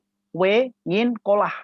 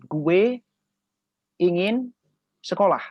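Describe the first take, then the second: First: Only the final parts of the words are said. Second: Every word is pronounced in full. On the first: "Dia cuman ngambil bagian akhir" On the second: "Misalkan saya mau mengatakan gue ingin sekolah"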